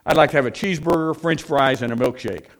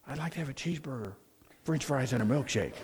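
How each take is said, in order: First: Brisk, loud counter order. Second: Very soft, hushed order; barely audible, meant for a quiet library; hushed library whisper. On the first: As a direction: blurt out the order at full voice. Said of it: "in a very loud voice". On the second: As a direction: repeat the order in a tiny hushed voice. Same order repeated after being shushed. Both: Acted.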